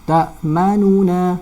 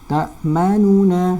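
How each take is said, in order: No difference in how they are said.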